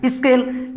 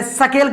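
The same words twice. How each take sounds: First: स्केल said as "is-kel"; leading "is" sound. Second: सकेल said as "sa-kel", vowel after the s; full "sa" sound. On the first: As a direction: put a short "i" before the s of स्केल. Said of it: "यहाँ पर भी इस सा का उच्चारण". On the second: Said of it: "सा क्यों नहीं बोल रहे?". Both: Shown as a demonstration.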